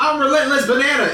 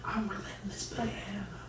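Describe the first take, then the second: First: The phrase is said in a loud voice. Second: The phrase is said in a whisper. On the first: This was not the version the listener heard. "It wasn't the loud one" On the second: This was the version the listener heard. "when she whispered it, that's what he got"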